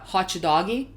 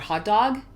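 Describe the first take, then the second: First: It has a Brazilian accent with an added final vowel. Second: It has a standard English accent with no added vowel.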